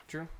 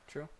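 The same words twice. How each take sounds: Both takes have the same delivery.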